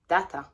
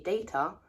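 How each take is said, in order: First: The word is said with a French-style vowel. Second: The word is said with a British vowel.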